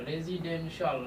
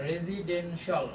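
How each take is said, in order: No difference in how they are said.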